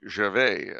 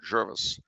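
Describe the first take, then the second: First: The name ends with a 'vay' sound. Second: The name ends with a 'vis' sound. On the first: This is how an outsider would say it. "as I would call it" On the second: This is probably how locals say it. "they probably pronounce it Jervis"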